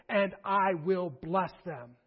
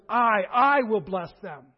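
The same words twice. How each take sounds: First: Said in the usual way. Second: I repeated and punched loud; stress on I. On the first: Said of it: "note the emphatic". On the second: Shown as a demonstration. Preacher showing the congregation the emphatic I, stressed loudly. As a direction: hit a doubled I hard, then finish the line. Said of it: "note the emphatic "I".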